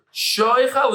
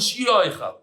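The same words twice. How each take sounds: First: Said in the usual way. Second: "she'oichal" with a clear ee after "she"; slow "she'oichal", turned into shee-oichal; added E. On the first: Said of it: "It's the same word". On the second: Shown as a demonstration. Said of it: "a little bit of a E".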